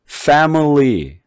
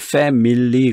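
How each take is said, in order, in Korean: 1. "family"의 가운데 모음은 약한 슈와로 줄어들어요. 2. "family"의 가운데 모음은 완전한 모음으로 발음해요. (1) "여기다 중성모음을 집어넣었어요" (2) "한국 사람들은 이걸 family 그런단 말이에요"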